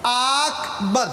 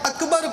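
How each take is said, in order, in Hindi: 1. पहला स्वर लंबा खींचा जाता है। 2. दोनों स्वर छोटे हैं।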